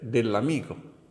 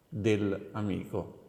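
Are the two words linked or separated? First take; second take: linked; separated. First: The two words run together without a break. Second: The two words are said separately with a break. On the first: The speaker calls it right. "ma dovrebbe essere dell'amico" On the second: The speaker calls it wrong. "non dovrebbe essere staccata"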